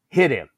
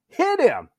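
First: Short command, slightly raised; controlled, matter-of-fact command; retold firm order. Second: Very high, insistent command; escalated, high-pitched bark; retold yelled order. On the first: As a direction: imitate a sergeant giving an order. Senior's first order to hit. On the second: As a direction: imitate a sergeant at the end of patience.

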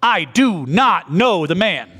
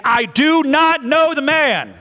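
First: Each word "I do not know the man" pressed out slowly; slow sworn denial. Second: Much higher and louder, dragged out slowly; cursing denial. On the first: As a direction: swear it, word by word. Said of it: "he denied with an oath". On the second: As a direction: swear it out in fury. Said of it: "began to curse and swear". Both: Acted.

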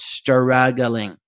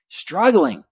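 First: "struggling" stretched slowly syllable by syllable; drawn-out emphasis. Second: "struggling" at normal length, pitched high then falling; emphatic repeat. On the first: Man confessing his distraction in church, "struggling" comically drawn out. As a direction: draw out "struggling" as stur-rug-gu-ling. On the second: Man confessing his distraction in church, "struggling" repeated higher and quicker. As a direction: punch "struggling" as one quick, higher word. Repeats it after the stretched take. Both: Shown as a demonstration.

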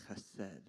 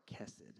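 First: "chesed" with a throaty Hebrew ch; Hebrew pronunciation. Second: "Kesed" with a hard K; anglicised name. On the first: Preacher citing the name's Hebrew source, "chesed" with throaty ch. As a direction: say "chesed" with a rasped ch at the start. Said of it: "get it from the Hebrew word". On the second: Preacher giving a friends' daughter's name, anglicised "Kesed" with hard K. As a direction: say "Kesed" starting with a plain English K sound. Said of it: "we call her Kesed". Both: Shown as a demonstration.

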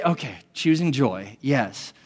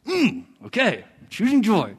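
First: Willing agreement. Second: Reluctant, dragged-out okay; grudging agreement. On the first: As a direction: accept it gently and honestly. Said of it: "when I say". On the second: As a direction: agree through clenched reluctance. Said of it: "when I heed the infallible voice". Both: Retold or imitated.

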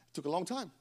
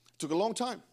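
First: Quiet first take, dropped low; softer, drawn out. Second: Long leaned on, falling at the end; stress on long. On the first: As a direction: say it softly, lower than the rest. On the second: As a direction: hit long, then let time fall. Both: Shown as a demonstration.

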